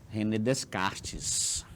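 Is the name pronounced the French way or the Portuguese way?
Portuguese. The name is said with a Portuguese pronunciation. The speaker calls it wrong. "a galera não pronuncia no francês... acaba dizendo René Descartes"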